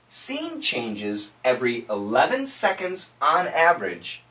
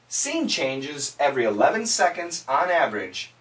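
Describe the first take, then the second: First: It is spoken at a slow pace. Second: It is spoken at a moderate pace. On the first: "Say it with me slowly" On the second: "Let's say it faster, faster this time"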